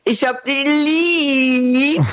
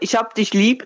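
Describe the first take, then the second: First: It is said slowly, with words drawn out. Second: It is said at a normal, quick pace.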